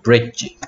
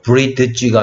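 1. 단어 안에서 d는 묵음이에요. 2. d는 별도의 음절로 소리 나요. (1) "소리 안 나는 녀석 D죠" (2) "브리드지가 아니고"

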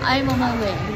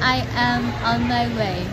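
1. Các từ được nối liền nhau một cách thân mật. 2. Mỗi từ được phát âm đầy đủ và cẩn thận. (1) "đúng sẽ là I am on my way, đúng là cái âm thanh đó" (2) "người ta sẽ đọc tương tự như cái cách Hà đọc, thì họ sẽ hài hước họ chấm rằng là wrong"

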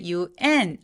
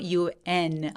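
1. 강세는 마지막 글자에 있어요. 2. 강세는 첫 글자에 있어요. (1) "UN 아니고" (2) "앞으로 밀듯이 강세 주시는 거"

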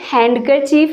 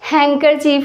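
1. इस शब्द में d की ध्वनि उच्चारित होती है। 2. इस शब्द में d की ध्वनि साइलेंट है। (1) "ये हैंडकरचीफ नहीं होता" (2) "यहाँ पे डी साइलेंट होता है"

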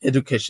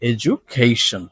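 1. মাঝের ব্যঞ্জনটির উচ্চারণ সাধারণ 'd'-এর মতো। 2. মাঝের ব্যঞ্জনটির উচ্চারণ 'j'-এর মতো। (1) "not education" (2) "জয়ের উচ্চারণটা এখানে জ হয়ে যাচ্ছে"

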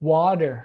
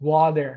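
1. ออกเสียงด้วยสำเนียงอเมริกันครับ 2. ออกเสียงด้วยสำเนียงอเมริกันครับ

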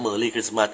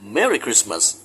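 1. พูดด้วยสำเนียงไทย 2. พูดด้วยสำเนียงอังกฤษ (1) "แต่ถ้าพูดกับคนไทยก็" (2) "ออกเสียงภาษาอังกฤษถูกต้องก็ต้องพูดออกเสียงว่า"

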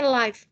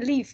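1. Vokalnya terdengar seperti bunyi 'eye'. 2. Vokalnya terdengar seperti bunyi 'ih' yang pendek. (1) "kalau siaran langsung dibacanya siarannya live" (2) "kalau di bahasa Inggris ditulis dibacanya live nih"

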